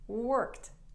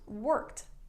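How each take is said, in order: Both takes have the same delivery.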